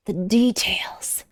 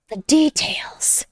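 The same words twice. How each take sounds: First: Slow unvoiced whisper of The details. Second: The details whispered slowly, much higher, rising on The. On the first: Marveling at the figure's details, slow whisper. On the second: Marveling at the figure's details, higher whisper. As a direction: lift The details up in a slow breathy whisper. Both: Shown as a demonstration.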